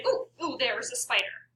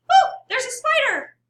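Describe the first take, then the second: First: Said in the usual way. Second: High, loud startled cry; scared, raised pitch. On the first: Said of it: "I have a pretty mellow pitch". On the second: Shown as a demonstration. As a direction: cry out in fright, voice leaping up. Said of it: "My voice raises a few octaves".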